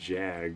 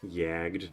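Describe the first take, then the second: First: The word begins with a J sound. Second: The word begins with a Y sound. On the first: The speaker calls it wrong. "I've been saying jagged this whole time" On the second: The speaker calls it right. "You pronounce oh, it's like yagged"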